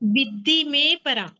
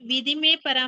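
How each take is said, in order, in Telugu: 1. dh హల్లు రెట్టింపుగా, ఎక్కువసేపు ఉంటుంది. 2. dh హల్లు చిన్నగా, ఒకటిగా ఉంటుంది. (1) "దాన్ని ఒత్తి పలకాలి" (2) "మీరు ఇది విధిమే పరాం అన్నారు, ... విధిమే అని చదవద్దు"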